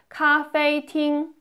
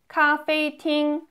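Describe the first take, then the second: The two takes are said the same way.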